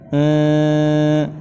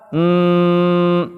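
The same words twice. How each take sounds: First: The tongue touches lightly, leaving a muffled nasal. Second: The tongue presses hard, giving a firm nasal. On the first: The speaker calls it right. "cukup sekedar nempel saja" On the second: The speaker calls it wrong. "Kalau ditekan hmm, ini aneh bunyinya ya"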